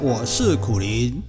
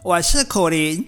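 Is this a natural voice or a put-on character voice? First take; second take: natural; put-on. First: It is said in his natural voice. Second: It is said in a put-on bat voice.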